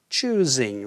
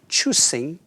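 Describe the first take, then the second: First: The middle consonant is a Z sound. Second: The middle consonant is an S sound. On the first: The speaker calls it right. "there's a Z sound in the middle in choosing" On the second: The speaker calls it wrong. "it is so often spoken with the sound S in the middle"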